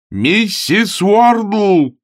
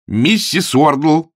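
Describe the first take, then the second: First: Very slow, very high bellowed name; window-rattling yell. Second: Slow, drawn-out call, louder and higher. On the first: Augustine bellows for the landlady, dragging the name out. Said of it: "завопил он так, что затряслись окна". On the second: Augustine calls the landlady from the stairs, drawn out. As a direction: call her name down the stairs. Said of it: "взывая". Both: Acted.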